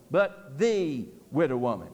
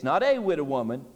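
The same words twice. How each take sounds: First: "the" in "but the widow woman" stressed and lowered. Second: "a" in "not a widow woman" stressed. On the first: Preacher contrasting "the" woman for the congregation, stressed. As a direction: lean on "the" in "but the widow woman", dropping low. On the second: Preacher stressing "a" to the congregation. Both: Shown as a demonstration. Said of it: "Very emphatic".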